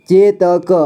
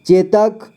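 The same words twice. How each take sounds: First: चेतक split as चे, त, क; syllable by syllable. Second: Said in the usual way. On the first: Shown as a demonstration. Teacher showing learners चेतक, sounded out in parts. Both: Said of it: "इसे पढ़ेंगे".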